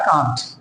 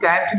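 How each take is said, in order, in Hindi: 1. स्वर 'father' वाले स्वर जैसा है। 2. स्वर 'cat' वाले स्वर जैसा है। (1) "यूके में बोलता है कांट" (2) "यूएस में इस तरीके से बोलता है"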